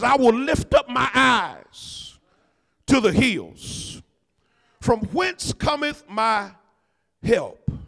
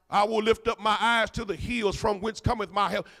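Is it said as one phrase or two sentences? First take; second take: two sentences; one phrase. First: A statement, a break, then a question. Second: It runs together as one phrase.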